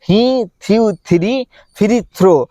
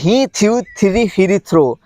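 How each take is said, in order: First: The phrase is said at a slow pace. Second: The phrase is said at a quick pace.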